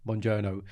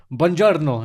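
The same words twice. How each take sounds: First: Softer "buongiorno" with the r dropped, ending in English "oh"; anglicised "buongiorno". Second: Slow, emphatic "buongiorno" with a rolled r; proper Italian "buongiorno". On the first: Retold or imitated. Imitating Shindy's poor attempt, anglicised "buongiorno". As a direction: say "buongiorno" limply with no Italian r. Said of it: "And she'll be like". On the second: Shown as a demonstration. Showing Shindy how to say it properly, emphatic Italian "buongiorno". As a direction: stretch "buongiorno" out with full Italian r. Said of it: "Just say it properly".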